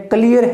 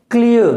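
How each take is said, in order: First: क्लियर as kli-yar; wrong pronunciation. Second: क्लियर as klia, no r; ia diphthong. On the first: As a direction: sound the r at the end of क्लियर. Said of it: "नहीं क्लियर है". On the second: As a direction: end क्लियर on an uh glide. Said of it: "pronunciation इसका क्या". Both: Shown as a demonstration.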